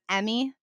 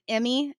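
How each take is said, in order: First: The first vowel sounds like 'eh', non-Southern style. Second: The first vowel sounds like 'ih', Southern style. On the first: "instead of" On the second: "in the South we pronounce our I's like our E's and our E's like our I's"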